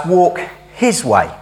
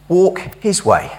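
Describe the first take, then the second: First: Said in the usual way. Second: Walk His Way said slowly, each word weighted; slow emphasis. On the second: Shown as a demonstration. Preacher repeating the misheard title to campers, slow weighty stress. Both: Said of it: "I often hear it as".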